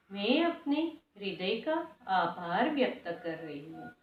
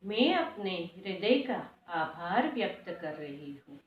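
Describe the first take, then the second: No difference in how they are said.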